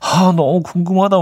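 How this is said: It is said in a pleading, yearning tone.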